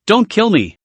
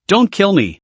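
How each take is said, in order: First: Sharp, high cry. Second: Said in the usual way. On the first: A narrator's reading. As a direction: snap it out sharply. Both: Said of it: "Enelu said sharply".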